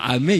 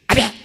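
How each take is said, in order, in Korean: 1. 차분하고 평범한 목소리로 말합니다. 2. 날카롭고 찢어지는 목소리로 말합니다. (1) "아멘 이렇게 안 해" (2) "찢어지는 목소리라 아멘 이런 식으로 해요"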